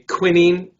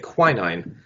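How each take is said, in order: First: It is said with a British pronunciation. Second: It is said with an American pronunciation. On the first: "if you're British or Aussie, you probably say quinine" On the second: "in America we say quinine"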